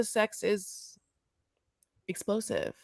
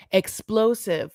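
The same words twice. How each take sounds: First: Much softer, almost under the breath; quiet, held-back delivery; hushed understatement. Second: Said in the usual way. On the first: Shown as a demonstration. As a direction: drop the word explosive right down. Same word repeated for effect.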